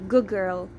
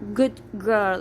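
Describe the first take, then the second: First: The final D of good is dropped. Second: The final D of good is pronounced. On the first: The speaker calls it right. "it's gonna be good girl" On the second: The speaker calls it wrong. "it's not good girl"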